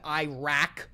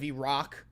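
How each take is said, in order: First: It is said in an Americanized way. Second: It is said in a native-like way. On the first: The speaker calls it wrong. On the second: The speaker calls it right.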